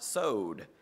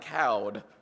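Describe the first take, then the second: First: The word begins with an s sound. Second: The word begins with a k sound. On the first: The speaker calls it right. "I'm told it's pronounced sowed" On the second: The speaker calls it wrong. "it looks to me like cowed or something like that"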